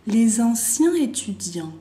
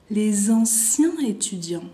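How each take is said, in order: Both takes have the same delivery.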